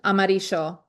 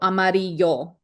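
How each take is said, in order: First: The double L sounds like sh. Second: The double L sounds like y. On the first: This is how it is said in Argentina. "I think it's Argentina. I think they say amarillo, like a S H" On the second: This is the simplified version to be learned. "we are going to be learning the y version, so amarillo"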